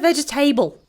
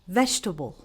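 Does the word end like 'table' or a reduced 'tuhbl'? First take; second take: table; reduced. First: The ending sounds like the word 'table'. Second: The ending is reduced, not like 'table'. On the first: The speaker calls it wrong. "I generally hear table in the end. Don't do it" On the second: The speaker calls it right. "We need to pronounce it as vegetable because this has nothing to do with a table"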